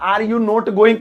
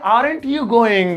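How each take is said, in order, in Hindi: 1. Are और not अलग-अलग शब्दों की तरह बोले जाते हैं। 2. Are और not मिलकर एक शब्द बन जाते हैं, aren't। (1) "पहले बनता था" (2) "आप बनाएंगे"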